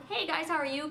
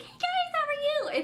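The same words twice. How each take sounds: First: Said in the usual way. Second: Very high chirpy hey guys; fake cheery vlogger. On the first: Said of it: "If it's, like, not". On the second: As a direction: squeal it like a fake happy vlogger. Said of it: "vlog and be like".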